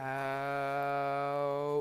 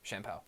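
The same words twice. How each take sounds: First: The word is said slowly. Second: The word is said quickly.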